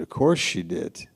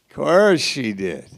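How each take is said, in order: First: Said in the usual way. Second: Higher, louder knowing "Of course she did"; knowing sarcasm. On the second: Acted. Preacher hinting at Michal's motives, knowing sarcasm. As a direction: toss it off with a knowing lilt.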